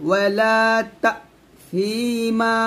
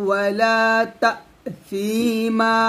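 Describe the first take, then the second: The two takes are said the same way.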